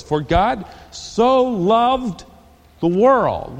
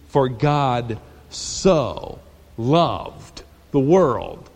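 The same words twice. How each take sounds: First: Slow and higher, savouring each word; drawn-out verse. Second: Very slow, low and hushed on so loved; reverent slow read. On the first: Preacher opening the verse, slow and lifted. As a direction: stretch out so loved. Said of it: "Let's go on in the verse". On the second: Preacher rereading the verse, slow and reverent. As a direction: let the words hang in awe. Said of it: "That's about as good as you can say it". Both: Shown as a demonstration.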